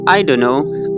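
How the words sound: It is said the way native speakers say it. "but they will say I don't know"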